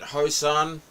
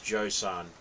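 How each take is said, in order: First: The name begins with an H sound. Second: The name begins with a J sound. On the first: The speaker calls it wrong. "the J silent?" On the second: The speaker calls it right. "J is pronounced, so it's Josan"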